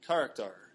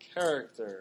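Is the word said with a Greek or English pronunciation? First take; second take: Greek; English. First: It is said with a strong Greek pronunciation. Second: It is said with a plain English pronunciation.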